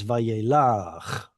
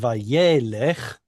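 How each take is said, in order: First: The stress falls on the last syllable. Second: The stress falls before the last syllable. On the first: This is the form used at a pause in the verse. "Pausal form pulls the stress to that last syllable" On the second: This is the ordinary form of the word. "instead of being Vayelech"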